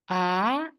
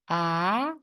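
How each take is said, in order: First: The pitch rises from middle to high. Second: The same.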